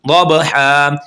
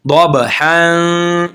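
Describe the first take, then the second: First: दबहा stopped short; reading with pause; pausal form. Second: दबहा very slowly drawn; slow recitation; joined form. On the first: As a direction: stop on दबहा. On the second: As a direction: chant दबहा long and connected. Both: Shown as a demonstration. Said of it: "वसल के साथ भी पढ़ सकते हैं".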